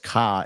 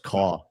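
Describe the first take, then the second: First: It is said in a Boston accent. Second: It is said in a New York accent. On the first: "in Boston" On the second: "In New York"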